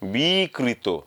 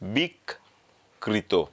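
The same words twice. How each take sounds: First: The i is lengthened and the k is single. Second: The k is doubled after a short i. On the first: The speaker calls it right. "এই ইটাকে একটু টানবো" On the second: The speaker calls it wrong. "কয়ের সাথে আর একটা ক যুক্ত করে দিলাম"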